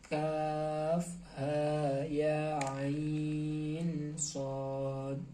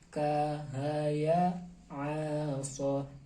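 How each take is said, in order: First: Each letter is spelled out by its full name. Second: Each letter is said as a short syllable. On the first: The speaker calls it right. "melainkan dengan cara mengeja" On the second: The speaker calls it wrong. "bukan dengan melafalkan"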